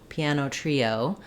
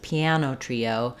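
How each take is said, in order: First: The main stress falls on trio. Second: The main stress falls on piano. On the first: "the main stress will be on trio" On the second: "you can also stress"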